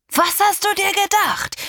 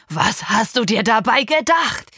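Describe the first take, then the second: First: Much higher, louder furious yell; father shouting higher. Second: Loud, angry yell at the daughter; father shouting. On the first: Father repeating the question in rising rage, yelling high. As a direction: escalate into a near-shriek. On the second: Father yelling at his pregnant daughter, loud and angry. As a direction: demand it furiously. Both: Acted. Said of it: "schrie er mich an".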